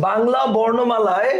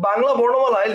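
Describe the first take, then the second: First: "Bangla বর্ণমালায়" drawn out slowly for writing down; slow dictation. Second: Said in the usual way. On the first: Shown as a demonstration. ("Bangla বর্ণমালায়" ধীরে টেনে শ্রুতলিপির মতো) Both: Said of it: "লিখো".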